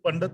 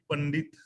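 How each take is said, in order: First: The second syllable has no 'i' vowel. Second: The second syllable has an 'i' vowel. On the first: The speaker calls it wrong. "ਇਹਨੂੰ ਪੰਡਤ ਨਹੀਂ ਪੜਨਾ" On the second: The speaker calls it right. "ਡੱਡੇ ਦੇ ਨਾਲ ਸਿਹਾਰੀ ਲਗਾ ਕੇ ਉਚਾਰਨ ਕਰਾਂਗੇ"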